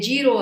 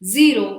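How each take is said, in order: First: The word begins with a j sound. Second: The word begins with a z sound. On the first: The speaker calls it wrong. "ಇದು ತಪ್ಪು" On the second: The speaker calls it right. "We have to say Z"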